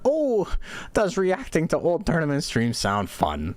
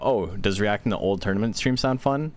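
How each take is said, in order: First: It is said as an eager, old-lady exclamation. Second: It is said as a plain, neutral question. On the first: The speaker is enthusiastically suggesting it. "with the exclamation mark, you sound like an old grandma" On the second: The speaker is simply asking.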